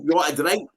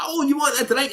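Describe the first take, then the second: First: Said in the usual way. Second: High, sweet offer of a drink; barmaid offer. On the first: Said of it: "She's stunning". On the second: Retold or imitated. Barmaid offering him a drink, high and sweet. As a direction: pitch it up like the barmaid. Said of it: "she's like".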